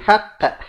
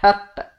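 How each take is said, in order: No difference in how they are said.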